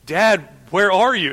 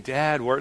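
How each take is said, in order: First: Higher, imitated anxious call; mock a child's worried cry for dad; scared child. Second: Lightly imitated child's easy call; mock playful calling, no urgency. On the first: Toddler who can't find hiding dad, calling out scared. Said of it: "He's scared". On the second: Toddler enjoying hide-and-seek with dad, playfully calling. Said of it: "playfully laughing".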